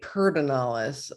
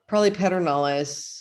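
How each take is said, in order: First: The name is pronounced in a reduced local form. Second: The name is pronounced following its spelling. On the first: The speaker calls it right. "as they say" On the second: The speaker calls it wrong. "you're saying it wrong"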